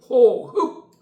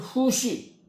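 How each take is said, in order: First: It is read as ho-heup, ending in a closed p. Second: It is read as hu-shi, ending without a stop. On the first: Breathing out and in sound distinct. "한국 발음은 호흡" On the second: Breathing out and in sound alike. "중국 사람들은 쉬 그래요"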